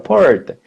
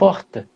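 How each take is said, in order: First: The word is said in a caipira accent. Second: The word is said in the speaker's usual accent. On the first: "do jeito caipira" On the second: "que é normal para mim"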